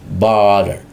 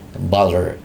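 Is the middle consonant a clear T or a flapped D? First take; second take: flapped D; flapped D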